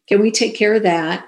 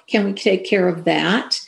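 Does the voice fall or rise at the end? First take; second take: fall; rise. First: The voice stays flat at the end. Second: The voice rises at the end.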